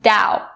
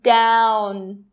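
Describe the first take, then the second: First: The final n sound is dropped. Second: The final n sound is clearly pronounced. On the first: The speaker calls it wrong. "If you do, then you're going to say dow" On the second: The speaker calls it right. "Make that n sound really clear"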